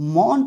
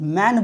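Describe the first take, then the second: First: The vowel is a rounded 'aw' sound. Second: The vowel is an open 'eh' sound. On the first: The speaker calls it wrong. "यहाँ पे मॉन तो नहीं बोल सकते" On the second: The speaker calls it right. "यहाँ पे मैन बोल सकते हैं"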